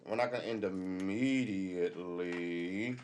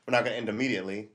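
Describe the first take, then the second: First: Slow, lingering drawl. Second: Quick rushed delivery; fast rush. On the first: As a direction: stretch it slowly, drawn out. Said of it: "slow drawn-out repeat". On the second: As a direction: rattle it off quickly. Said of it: "fast repeat". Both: Shown as a demonstration.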